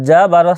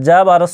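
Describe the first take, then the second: The two takes are said the same way.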